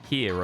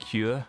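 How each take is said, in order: First: It is said in the speaker's plain accent. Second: It is said in a Welsh accent. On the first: "of course, in my normal voice" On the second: "Words just sound better in a Welsh accent, like here"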